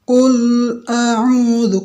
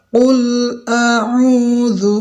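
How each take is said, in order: The two takes are said the same way.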